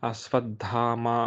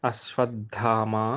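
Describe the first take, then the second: No difference in how they are said.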